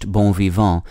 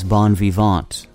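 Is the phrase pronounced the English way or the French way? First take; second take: French; English. First: It is pronounced the French way. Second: It is pronounced the English way.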